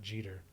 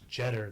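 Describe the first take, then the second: First: The surname is said the familiar way. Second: The surname is said the less familiar way. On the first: This is how a famous namesake's name is said. The speaker calls it wrong. "not Jeter, because like Derek Jeter has" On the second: This is how her name is actually said. The speaker calls it right. "her name is Jeter"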